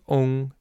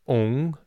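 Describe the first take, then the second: First: The final has a rounded, ong-like vowel. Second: The same.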